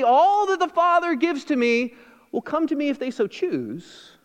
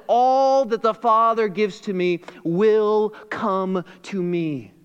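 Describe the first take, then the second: First: Higher, slightly sarcastic misquote; a teasing misreading, pitched high; mock wrong version. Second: Slow, weighty reading of the real words; deliberate slow scripture quote, falling at the end; true version, slow. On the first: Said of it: "He doesn't say". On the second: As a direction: lay down the true quote slowly and firmly. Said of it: "No, he says". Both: Shown as a demonstration.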